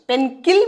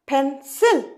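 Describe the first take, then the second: First: The second syllable starts with a k sound. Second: The second syllable starts with an s sound. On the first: The speaker calls it wrong. "পেনকিল বলছি কি আমরা? একদমই নয়" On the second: The speaker calls it right. "শয়ের উচ্চারণ আসছে"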